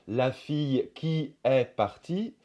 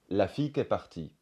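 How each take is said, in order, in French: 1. La voyelle de 'qui' est entièrement prononcée. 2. La voyelle de 'qui' est complètement supprimée. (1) "On va peut-être pas dire" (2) "Le pronom relatif qui aussi perd son I devant une voyelle"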